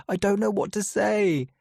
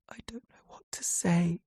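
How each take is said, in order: First: High, strained voice with know pushed out; louder, desperate plea to his sister; upset, teary. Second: Hushed, teary whisper; whispering helplessly to his sister. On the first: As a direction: blurt it out, close to tears. Repeats it, upset, near tears. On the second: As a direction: barely breathe the words out. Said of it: "I whisper". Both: A narrator's reading.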